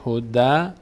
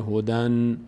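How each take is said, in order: First: هده ending on an open "da", no N; without tanvin. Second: هدن closing on a clear held N; with added nun. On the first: Teacher showing the single fatha alone, open ending. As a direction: leave the end of هده open on the vowel. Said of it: "این یک بار فتحه خودش". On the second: Teacher adding the nun sound, tanvin ending. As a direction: finish هدن on "-dan" with the N sounded. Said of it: "صدای نون باید اضافه بشه". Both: Shown as a demonstration.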